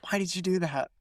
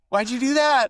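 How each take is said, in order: First: Restrained mock self-reproach, softer; self-scolding. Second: High, louder mock outburst; exasperated self-scolding. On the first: Speaker turning away after imitating a stranger, self-scolding. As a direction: scold yourself under control first. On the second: Speaker berating themselves for copying an accent, exasperated. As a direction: burst out at yourself in mock dismay. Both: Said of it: "turn around and I'll be like".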